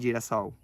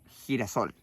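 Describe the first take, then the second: First: The g has a soft Portuguese sound. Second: The g has a strong Spanish sound. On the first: "en portugués diríamos" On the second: "la palabra girasol"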